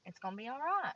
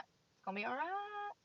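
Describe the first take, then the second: First: Said in the usual way. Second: Softer, higher self-reassurance; softer, higher calming whisper to himself; soothing himself. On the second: Real, not acted. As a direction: talk yourself down gently. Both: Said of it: "Calm down".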